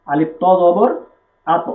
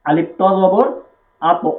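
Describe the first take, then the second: First: আত said with lips rounded and the ত lifted upward; ঠোঁট চুপকা করে ঊর্ধ্বমুখী আত. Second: আত said with the voice lifting upward on the ত; ঊর্ধ্বমুখী টানে আত; upward pull. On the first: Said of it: "ঠোঁটটা একটু চুপকা করে". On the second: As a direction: spell it out, then lift আত up. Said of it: "ঊর্ধ্বমুখী করতে হবে". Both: Shown as a demonstration.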